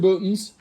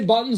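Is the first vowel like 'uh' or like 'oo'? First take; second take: oo; uh. First: The first vowel sounds like 'oo'. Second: The first vowel sounds like 'uh'. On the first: "That's the only proper way of saying buttons is by saying bootins" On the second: "do you say buttons or bootins?"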